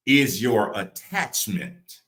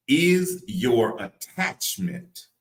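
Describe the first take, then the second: First: Said in the usual way. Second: Very slow, higher, stretched-out words; real slow. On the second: Real, not acted. Preacher repeating the question to let it land, real slow. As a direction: draw out each word so it sinks in. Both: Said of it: "I'm gonna say it real slow".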